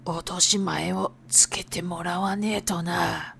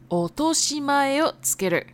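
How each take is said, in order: First: Low, soft gangster threat on 落とし前. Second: Said in the usual way. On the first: Acted. Yakuza example of same phrase.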